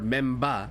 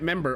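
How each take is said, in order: First: It is said with a Japanese pronunciation. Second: It is said with an English pronunciation.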